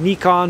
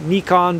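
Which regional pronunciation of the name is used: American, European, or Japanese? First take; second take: Japanese; Japanese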